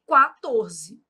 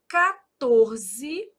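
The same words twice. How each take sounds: First: "quatorze" bem devagar, kwa-TOR-ze, com o u; quatorze com qua. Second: "quatorze" dito ca-TOR-ze, sem o u; quatorze com ca. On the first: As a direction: soletra "quatorze" pronunciando o u. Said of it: "Quatorze e quatorze". (pronúncia lenta "quatorze" com u) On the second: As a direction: fala "quatorze" como catorze. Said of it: "Por exemplo". (pronúncia "quatorze" como catorze) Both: Shown as a demonstration.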